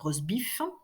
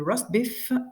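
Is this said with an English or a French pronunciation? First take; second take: French; English. First: It is pronounced the French way. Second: It is pronounced the English way. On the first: "On va les lire à la française" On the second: "si on les prononce correctement"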